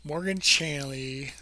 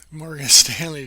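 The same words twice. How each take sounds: First: Slow, fumbling words through numb lips. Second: Louder retry breaking into a laugh; laughing at own slip. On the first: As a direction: lips won't cooperate, slow and clumsy. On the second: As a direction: laugh through the stumble on the name. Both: Real, not acted. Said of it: "my lips don't work".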